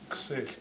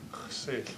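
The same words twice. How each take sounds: First: It is said without the raspy throat sounds. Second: It is said with raspy throat x sounds. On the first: This is the other village's pronunciation. "but they have ksich there" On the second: This is the local dialect's pronunciation. "we generally pronounce it ksich with X's"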